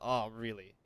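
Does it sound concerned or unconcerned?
unconcerned. It sounds flat and unconcerned.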